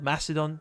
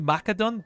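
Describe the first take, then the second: First: It is pronounced the modern English way. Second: It is pronounced the Latin way. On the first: "but we call it Macedon today" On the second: "I think that in Latin would be Macedon"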